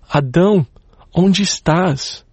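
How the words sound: It sounds like a sobbing, heartbroken father.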